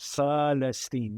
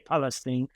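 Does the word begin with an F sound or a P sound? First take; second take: F sound; P sound. First: The word begins with an F sound. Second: The word begins with a P sound. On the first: This is how Arabic speakers say it. "There's no P because we say as F" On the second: This is how English speakers say it. "You say Palestine"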